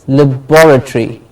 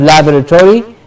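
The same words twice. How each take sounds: First: The stress falls on the 'bor' syllable. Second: The stress falls away from the 'bor' syllable. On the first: The speaker calls it right. "bor gets the stress" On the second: The speaker calls it wrong. "it's not laboratory"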